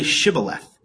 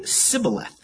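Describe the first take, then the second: First: Shibboleth with a clear SH at the start; correct pronunciation. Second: Sibboleth with a plain S at the start; Sibboleth with the H dropped from SH; mispronunciation. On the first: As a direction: say Shibboleth, opening on "sh" as in "ship". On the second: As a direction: say Sibboleth, opening on "s" as in "sip". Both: A narrator's reading. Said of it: "he could not pronounce it right".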